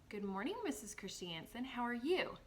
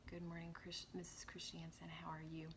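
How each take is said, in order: First: The voice goes up and down expressively. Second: The voice stays flat, without rising and falling. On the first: The speaker calls it right. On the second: The speaker calls it wrong.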